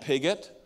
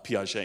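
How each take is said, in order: First: The name is said like English 'pig-ut'. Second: The name is said the French way, 'pee-ah-zhay'. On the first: The speaker calls it wrong. "our French pronunciation was very bad" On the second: The speaker calls it right. "it turns out it's more like Piaget"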